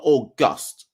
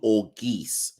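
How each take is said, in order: First: The last syllable sounds like 'gust'. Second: The last syllable sounds like 'geese'. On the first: The speaker calls it wrong. "So not August" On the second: The speaker calls it right. "think as if you're saying geese"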